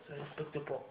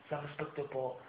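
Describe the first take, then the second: No difference in how they are said.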